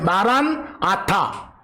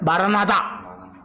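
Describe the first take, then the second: First: The two words are said separately. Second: The two words run together quickly.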